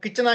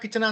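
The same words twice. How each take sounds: No difference in how they are said.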